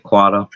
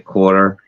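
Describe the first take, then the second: First: The final R sound is dropped. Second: The final R sound is pronounced. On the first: "we say quarter" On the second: "We don't say quarter"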